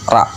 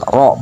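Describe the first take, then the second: First: The letter is said thin, with an open vowel. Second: The letter is said thick, with a rounded vowel. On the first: The speaker calls it wrong. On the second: The speaker calls it right. "Roknya tebal, dibaca tebal"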